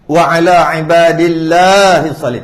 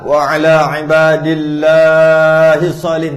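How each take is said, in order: First: The long vowel is lengthened only slightly. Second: The long vowel is drawn out very long. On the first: The speaker calls it right. "janji panjang sikit cukup dah" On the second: The speaker calls it wrong. "Taklah ... tak payah. Ni macam baca Quran"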